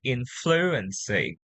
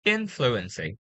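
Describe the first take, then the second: First: Influency mis-stressed on FLU, not IN; wrong stress. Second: INfluency, weight on IN; first-syllable stress. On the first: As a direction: shift the weight of influency onto FLU. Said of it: "If you say it like that, it's more like". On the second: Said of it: "Now here, let's say it again". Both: Shown as a demonstration.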